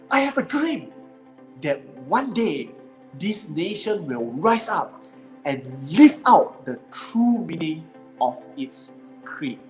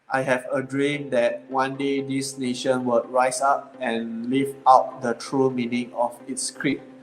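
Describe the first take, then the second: First: It is said with lively, inspiring energy. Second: It is said flatly, without inspiring energy.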